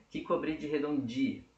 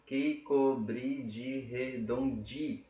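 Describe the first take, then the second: First: Said in the usual way. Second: Slow, drawn-out syllables; syllable-by-syllable counting. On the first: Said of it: "Mesma coisa". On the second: Shown as a demonstration. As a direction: separate every syllable for counting. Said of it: "tem sete sílabas poéticas".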